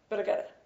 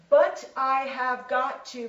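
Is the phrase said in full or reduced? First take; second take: reduced; full. First: The words blend quickly into one reduced form. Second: Each word is said fully and separately.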